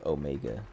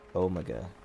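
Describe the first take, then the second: First: Omega is pronounced the American way. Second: Omega is pronounced the British way. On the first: "instead of Omega" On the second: "they all have different British accents, but they all say Omega"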